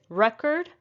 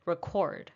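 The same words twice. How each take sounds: First: Record as REK-erd; stress on first syllable. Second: Record as rih-KORD; stress on second syllable. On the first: Teacher summing up the noun, record stressed on REK. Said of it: "The first syllable is stressed". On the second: Teacher summing up the verb, record stressed on KORD. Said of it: "it's a verb". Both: Shown as a demonstration.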